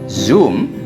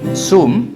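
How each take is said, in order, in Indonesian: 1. Kata ini diawali bunyi z bergetar. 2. Kata ini diawali bunyi s mendesis. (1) "harus bersuara z"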